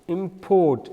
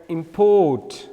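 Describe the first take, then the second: First: The stress is on the second syllable. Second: The same.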